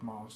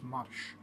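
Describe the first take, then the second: First: The word ends with an s sound. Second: The word ends with an sh sound. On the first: The speaker calls it wrong. "it's not pronounced as Mars" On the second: The speaker calls it right. "it's pronounced as marsh"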